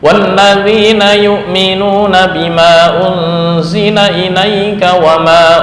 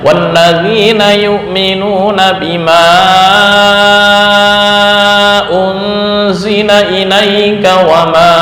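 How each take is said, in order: First: The vowels before each hamza are held short. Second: The vowels before each hamza are held long. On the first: This follows one reading tradition. "mad jaiz munfasil hanya dibaca dua harokat" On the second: This follows another reading tradition. "dibaca panjang"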